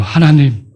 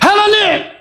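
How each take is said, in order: First: It is said softly and gently. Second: It is shouted loudly and harshly. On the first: The speaker calls it right. "기도할 때 목소리" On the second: The speaker calls it wrong. "이럽니까?"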